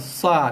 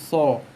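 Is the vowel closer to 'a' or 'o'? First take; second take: a; o. First: The vowel sounds like a plain open 'a'. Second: The vowel sounds rounded, like 'o'. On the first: The speaker calls it wrong. "Kita tak baca baca dengan sa" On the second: The speaker calls it right. "tapi so"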